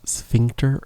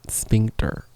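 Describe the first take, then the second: First: "Sphincter?" said with an f sound, sfink-ter, rising; "Sphincter?" starting s-f like sphere; f sound, questioning; f pronunciation. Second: "Sphincter" said with a hard p, spink-ter; "Sphincter" starting s-p like spin; p sound, not f; sp pronunciation. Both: Shown as a demonstration. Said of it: "Is it sphincter or sphincter?".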